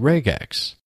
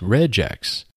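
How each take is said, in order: First: The g is hard, like in go. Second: The g is soft, like a j. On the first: "I keep the hard G from regular" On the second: "Some people might pronounce this as"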